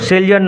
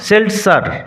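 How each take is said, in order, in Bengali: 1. মাঝের ব্যঞ্জনধ্বনিটি z ধ্বনি। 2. মাঝের ব্যঞ্জনধ্বনিটি s ধ্বনি। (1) "সেলজার নয়" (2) "জেডের উচ্চারণটা এস এর মতো হবে"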